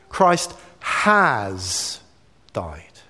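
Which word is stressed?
has. The stress falls on the word has. The focus is on what happened in the past. "it centers on the past of what's happened"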